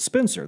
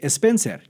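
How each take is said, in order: First: The name starts directly with an S sound. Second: A vowel sound is added before the S. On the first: This is the English pronunciation. "in English it's Spencer" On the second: This is how Spanish speakers in Mexico said it. "they would say Spencer because in Spanish you really can't pronounce, or it's difficult to pronounce a word beginning with an S"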